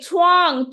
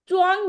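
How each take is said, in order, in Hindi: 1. यह महाप्राण ch ध्वनि से शुरू होता है। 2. यह अल्पप्राण ch ध्वनि से शुरू होता है। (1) "छ मैंने बोला" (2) "च्वांग नहीं है"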